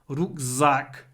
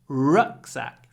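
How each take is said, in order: First: The stress is on the second syllable. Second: The stress is on the first syllable. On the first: The speaker calls it wrong. "in Russian, the stress is always on the second syllable" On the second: The speaker calls it right. "In English, it's always on the first syllable"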